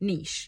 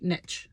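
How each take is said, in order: First: It is said with a non-American pronunciation. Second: It is said with an American pronunciation.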